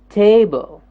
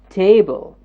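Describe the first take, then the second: The two takes are said the same way.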